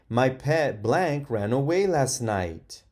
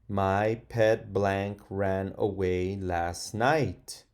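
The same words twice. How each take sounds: First: It is read in an excited tone. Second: It is read in a calm, plain tone.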